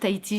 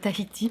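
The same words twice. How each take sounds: First: The h sound is left silent. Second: The h sound is clearly pronounced. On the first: The speaker calls it wrong. "je dis encore Tahiti" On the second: The speaker calls it right. "prononcer les H"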